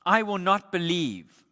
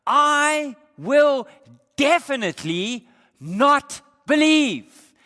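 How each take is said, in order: First: Said in the usual way. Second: I will definitely not believe, high, loud, slow, each word hammered; emphatic refusal. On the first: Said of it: "literally what he's saying". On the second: Shown as a demonstration. Preacher voicing Thomas's emphatic double negative, loud and stubborn. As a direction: spit out the refusal with full force. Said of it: "he says it in the imperative, in the emphatic".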